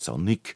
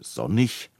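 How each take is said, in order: First: The word ends with a hard k sound. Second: The word ends with a soft ch sound. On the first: The speaker calls it wrong. "es heißt nicht sonnig" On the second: The speaker calls it right. "sondern sonnig. Mit CH"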